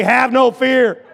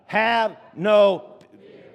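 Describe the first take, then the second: First: Loud, high, drawn-out rallying shout; with gusto. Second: Drawn-out, emphatic call; really loud. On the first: Pastor coaching a timid congregation, shouting with gusto. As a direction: belt it out slowly with gusto. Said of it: "say this with some gusto". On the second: Preacher prompting congregation to repeat, really loud. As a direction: say it slowly for everyone to repeat. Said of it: "say it really loud". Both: Shown as a demonstration.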